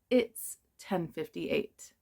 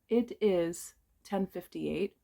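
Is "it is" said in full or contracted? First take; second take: contracted; full. First: It is shortened into one syllable. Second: It is said as two separate words. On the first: "we can say it's" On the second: "that is a correct sentence"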